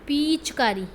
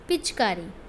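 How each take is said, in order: First: The first vowel is long and stressed. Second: The first vowel is short and lightly stressed. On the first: The speaker calls it wrong. "तो आपने ऐसे बोला क्या?" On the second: The speaker calls it right. "उस पे थोड़ा-सा stress कम लगता है"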